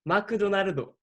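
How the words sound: It is said in a Japanese accent.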